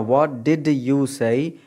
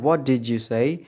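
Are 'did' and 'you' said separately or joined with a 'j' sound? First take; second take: separately; joined. First: Each word is said fully and clearly. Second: 'Did you' blends into a 'didja' sound. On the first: The speaker calls it wrong. "इसको बिल्कुल clear करके नहीं बोलना" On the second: The speaker calls it right. "यहाँ जे की sound आएगी"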